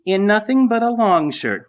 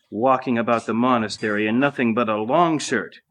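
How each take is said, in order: First: High, louder mimic of the lady's scorn; mock-prissy echo of "nothing but a long shirt"; mocking mimicry. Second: Sniffy noblewoman's scorn; disdainful, lofty remark on "long shirt"; contempt. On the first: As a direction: parrot her words back in a mocking high voice. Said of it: "mimicking her". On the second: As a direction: scoff at his bare shirt. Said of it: "she spat aside with contempt". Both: A narrator's reading.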